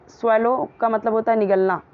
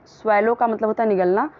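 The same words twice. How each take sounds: The two takes are said the same way.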